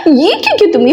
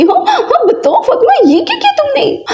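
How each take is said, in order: First: Said in the usual way. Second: High, teary half-laughing wail. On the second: Acted. Mother wails over wasted food. (ऊँची, रोती-हँसती चीख़)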